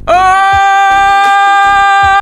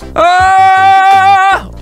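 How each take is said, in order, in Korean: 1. 외침에 강한 컴프레션이 걸려 있어요. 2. 외침에 약한 컴프레션만 걸려 있어요. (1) "지금 컴프레서를 확 올렸어요" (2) "컴프레서가 지금 어느 정도 잡아주고 있는 상황이긴 하거든요"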